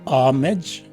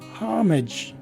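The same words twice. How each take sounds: First: The word starts without an H sound. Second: The word starts with an H sound. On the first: "present in the second variation and not in the first" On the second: "which is present in the second variation"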